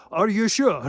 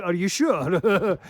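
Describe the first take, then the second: First: Higher, louder quick challenge. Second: Slow menacing challenge. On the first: Confronting a hostile man, loud and sharp. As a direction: snap the question at them. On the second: Challenging a hostile man, slow loud and menacing. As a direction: lean in and stretch the threat. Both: Retold or imitated. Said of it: "coming at me with hostility".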